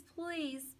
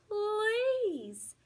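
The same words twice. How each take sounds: First: Softer, small pleading whimper. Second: Much higher and louder drawn-out wail; wailing plea. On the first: Dog whimpering to Hattie, soft and pleading. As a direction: let the begging shrink to a whimper. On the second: Dog wailing at Hattie for food, loud and drawn out. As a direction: howl the last please. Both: Acted. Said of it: "I whine some more".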